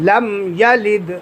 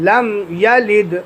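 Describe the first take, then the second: No difference in how they are said.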